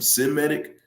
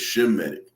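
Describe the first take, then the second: First: The word begins with an s sound. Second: The word begins with an sh sound. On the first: The speaker calls it wrong. "That's not how you say it" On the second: The speaker calls it right. "It's Shemitic"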